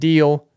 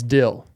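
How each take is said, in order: First: The vowel is long, as in 'deal'. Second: The vowel is short, as in 'dill'. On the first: The speaker calls it wrong. "It's not Deal" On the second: The speaker calls it right. "It's D-Y-L. It's Dill"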